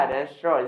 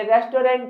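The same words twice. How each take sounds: First: "रेस्टोरेंट" as res-tro, silent final nt; preferred pronunciation. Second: "रेस्टोरेंट" higher, as res-to-rent; spelling pronunciation. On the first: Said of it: "बोलेंगे क्या?". ("रेस्टोरेंट" को 'रेस्ट्रो' बोलें) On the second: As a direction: read "रेस्टोरेंट" as written, pitch raised. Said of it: "लिखेंगे". ("रेस्टोरेंट" ऊँचे सुर में, रेस-टो-रेंट) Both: Shown as a demonstration.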